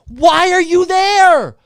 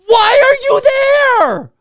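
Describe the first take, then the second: First: Said in the usual way. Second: Slow, high, loud yell of disbelief; a ranter losing it at phone users in theaters, yelling; exasperated shout. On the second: Real, not acted. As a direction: bellow the question at them, stretching it out.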